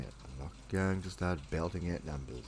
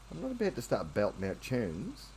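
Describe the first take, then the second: First: Said in the usual way. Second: Cooing pet talk. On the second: Real, not acted. Coos to cat.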